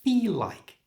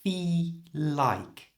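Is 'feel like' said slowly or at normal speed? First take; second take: normal speed; slowly. First: The phrase is said at normal speed. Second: The phrase is said slowly. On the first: "And at normal speed" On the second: "So slowly, it sounds like this"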